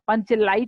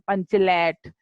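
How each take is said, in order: First: The second syllable is said with a full 'aai' vowel. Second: The second syllable is said with a short 'ai' vowel. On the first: This is the standard form villagers cannot manage. "अब पंचलाइट नहीं बोल पाते" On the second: This is how rural village people say it. "ग्रामीण भाषा में, तो थोड़ा सा उच्चारण उनका अलग सा होता है"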